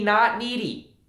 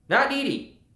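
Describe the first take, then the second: First: Said in the usual way. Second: Not needy said higher with weight on not; a pointed higher Not needy; stressed not needy. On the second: Shown as a demonstration. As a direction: lift and punch Not needy.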